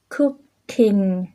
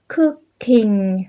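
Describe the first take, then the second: Both takes have the same delivery.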